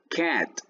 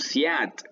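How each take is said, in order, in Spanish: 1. La palabra empieza con sonido k. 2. La palabra empieza con sonido s. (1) "decimos cat" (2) "no decimos siat"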